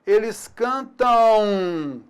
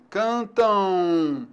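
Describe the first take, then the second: First: Cantam drawn out very slowly; slow demo. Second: Cantam ending in a nasal U glide, cantãu; final M as U. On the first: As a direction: stretch every syllable of cantam. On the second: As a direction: finish cantam on a U sound. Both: Shown as a demonstration. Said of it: "ela pode também produzir o som U".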